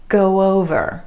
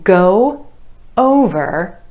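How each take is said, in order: First: A soft w sound glides between the words. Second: The two words are said separately.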